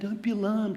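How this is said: It is said in a laid-back, chilled voice. "in an annoyingly chilled back kind of voice like"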